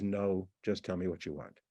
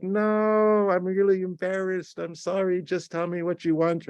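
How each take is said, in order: First: Low, quiet, cold reply. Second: Exaggerated embarrassment. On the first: Acted. Boyfriend texting girlfriend about her Christmas present, cold. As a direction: answer coldly, low and without any softening. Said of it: "Sounds very cold". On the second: Boyfriend apologising over the Christmas present, exaggeratedly embarrassed. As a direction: wail the no, then plead in a raised voice. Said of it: "This kind of exaggerated expression".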